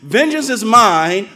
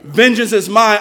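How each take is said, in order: First: It is read in a childish, self-claiming way. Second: It is read in a solemn, serious way. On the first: The reader claims vengeance for himself. The speaker calls it wrong. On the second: Vengeance belongs to God alone. The speaker calls it right.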